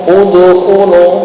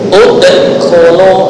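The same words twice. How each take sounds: First: The d releases with a slight u-like vowel. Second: The d release ends in a glottal catch. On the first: "seolah-olah dalnya condong ke harokat dhamma" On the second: "diakhiri dengan hamzah sukun"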